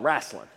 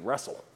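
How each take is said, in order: First: It is said in a local regional pronunciation. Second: It is said in a standard pronunciation. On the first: "In Greene County, that's what it's called" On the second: "they say it's supposed to be wrestle"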